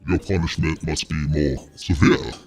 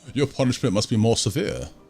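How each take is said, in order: First: It is said in a put-on character voice. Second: It is said in a plain normal voice.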